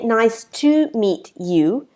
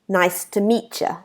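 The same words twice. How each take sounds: First: Each word is fully and separately articulated. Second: The words are shortened and run together. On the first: The speaker calls it wrong. "They don't say" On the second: The speaker calls it right. "We don't articulate every word. It's shorter"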